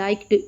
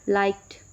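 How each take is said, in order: First: The ending is not a plain t sound. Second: The ending is a plain t sound. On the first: The speaker calls it wrong. "liked बोलना की कोशिश करेंगी liked, तो आपको ऐसा कुछ नामुनासिब सा लगेगा" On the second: The speaker calls it right. "Ending sound है ईडी का वो थ की सूरत में प्रोनाउंस होगा"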